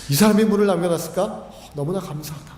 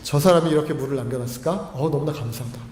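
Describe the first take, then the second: First: Brisk gratitude. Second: Loving gratitude. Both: Acted. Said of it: "사랑하는 마음이 생기는 겁니다".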